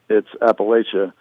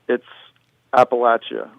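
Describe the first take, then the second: First: It uses the pronunciation common in the north. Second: It uses the pronunciation common in the south. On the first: This is how people north of the line say it. "above the Mason-Dixon line, it's Appalachia" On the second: This is how people south of the line say it. "below the Mason-Dixon line, it's Appalachia, largely. People pronounce it that way"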